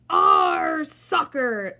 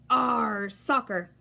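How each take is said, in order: First: Very loud, slow rough chant; crew yelling. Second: Shouting. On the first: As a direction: drag it out as a rowdy crew. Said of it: "the crew yelled". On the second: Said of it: "kicked the ball and shouted". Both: Acted.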